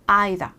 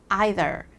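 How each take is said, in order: First: It is said with a British pronunciation. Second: It is said with a mixed, in-between pronunciation. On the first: "이런 영국 발음" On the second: "중간이 섞여서"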